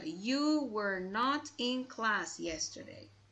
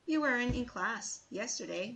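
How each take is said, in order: First: It is said with strong emphasis. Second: It is said plainly, without emphasis.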